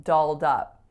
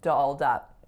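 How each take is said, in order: First: The vowels are relaxed, with 'ah' in dolled. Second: The vowels are relaxed, with 'ah' in dolled.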